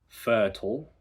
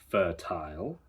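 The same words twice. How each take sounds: First: The ending is not pronounced like 'aisle'. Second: The ending is pronounced like 'aisle'.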